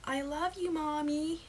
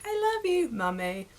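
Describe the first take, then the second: First: Put-on high little-girl American voice; thick American accent. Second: High, loud opening then dropping British voice; badly dubbed British child. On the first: Little girl to her mum, high thick American accent. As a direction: imitate an American toddler, pitched high. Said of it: "have a thick American accent". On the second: British dub over the little girl, high mock child voice. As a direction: do an obvious British dub of a toddler. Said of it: "obvious that you dubbed it over".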